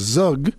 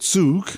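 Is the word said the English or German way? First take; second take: English; German. First: The word is said an anglicized English way. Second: The word is said the native German way. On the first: The speaker calls it wrong. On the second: The speaker calls it right.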